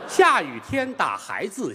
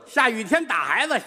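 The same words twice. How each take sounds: First: It is said in a British gentleman manner. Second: It is said in a broad old Beijing manner. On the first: "英国伦敦风格的机器人" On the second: "老北京这机器人医生来了"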